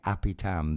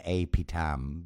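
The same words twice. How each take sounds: First: The first vowel sounds like the one in bat. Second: The first vowel sounds like the one in bait. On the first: The speaker calls it right. "a bat is a bat" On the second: The speaker calls it wrong. "you're pronouncing the letter A with the sound A like an American"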